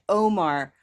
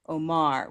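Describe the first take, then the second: First: The stressed vowel sounds like the one in boat. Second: The stressed vowel sounds like the one in sock. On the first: "Rose Boat Omar" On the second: "Olive Sock Omar"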